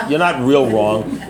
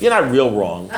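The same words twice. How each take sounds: First: "not" leaned on, the whole line slower; slow down and press "not" in "You're not real wrong"; slow, stress on not. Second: Said in the usual way. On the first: Shown as a demonstration. Reassuring the member who answered wrong, slow with "not" stressed. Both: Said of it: "but don't worry about it".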